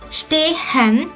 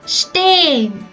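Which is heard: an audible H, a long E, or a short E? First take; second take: audible H; long E. First: The H is sounded between the vowels. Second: The E is long and the H silent. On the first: The speaker calls it wrong. "It's not pronounced stehen" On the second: The speaker calls it right. "with a long E and without the letter H"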